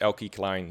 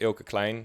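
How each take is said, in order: First: The name is said an anglicized, American-style way. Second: The name is said the normal Dutch way. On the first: "even I think on my own radio show it's Elke Klein" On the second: "normally it's pronounced Ilke Klein"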